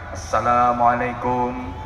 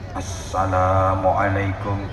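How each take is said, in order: First: It is said in a showy emcee manner. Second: It is said in a formal preaching manner. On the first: It greets a crowd at an event. "Kalau M C ya kayak tadi salamnya" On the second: It opens a sermon. "kalau orang ceramah kayak saya, ya beda lagi"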